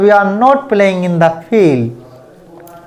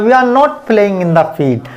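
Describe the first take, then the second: First: The sentence is spoken at a fast speed. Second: The sentence is spoken at a very fast speed. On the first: "और fast बोलना है" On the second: "और भी fast बोलना है"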